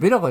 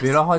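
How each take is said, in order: First: The last syllable starts with a 'k' sound. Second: The last syllable starts with an 'h' sound. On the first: The speaker calls it wrong. "ベラカじゃないじゃないですか" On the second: The speaker calls it right. "本当はベラハって言うんですか"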